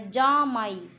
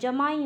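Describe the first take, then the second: First: The first vowel is long. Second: The first vowel is short. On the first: The speaker calls it wrong. "ये तो जामाई हो गया" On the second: The speaker calls it right. "जमाई होता है"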